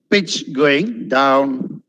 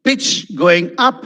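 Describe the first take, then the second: First: "down" dropped in a falling tune; very slow, voice sinking through "down"; pitch falling on DOWN. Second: "up" lifted in a rising tune; slow, with the voice climbing on "up"; pitch rising on UP. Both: Shown as a demonstration.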